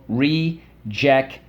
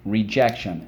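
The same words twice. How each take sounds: First: Rejection slowly split as re... jec... tion; syllable by syllable. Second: Said in the usual way. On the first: Shown as a demonstration. Teacher leading the class through rejection, syllable by syllable. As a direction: say rejection in separate, drawn-out beats. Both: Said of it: "Let's go".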